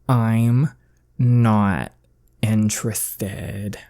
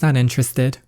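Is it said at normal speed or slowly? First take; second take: slowly; normal. First: It is said slowly and deliberately. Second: It is said at a normal speed.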